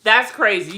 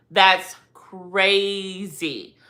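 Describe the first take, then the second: First: Said in the usual way. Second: "crazy" stretched very long and slow; very slow, elongated "crazy"; drawn-out emphasis. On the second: Real, not acted. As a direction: drag out "crazy" in slow disbelief.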